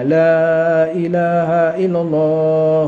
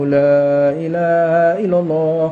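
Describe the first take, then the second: First: The opening 'la' sound is held long. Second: The opening 'la' sound is held long.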